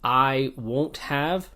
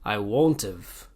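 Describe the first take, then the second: First: The word have is said in full. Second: The word have is reduced and joined on.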